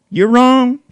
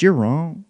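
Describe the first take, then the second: First: Sudden high loud yell; louder, higher repeat of the insult; shouted retort. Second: Said in the usual way. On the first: Real, not acted. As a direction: shout it back at him. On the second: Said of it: "repeated, second louder".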